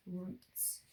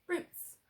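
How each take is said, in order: First: Said in the usual way. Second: "Roots" said much higher as the blended word; teacher revealing the blended word; triumphant reveal. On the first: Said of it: "now it's my turn". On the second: Shown as a demonstration. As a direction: sing out "Roots" high after sounding out.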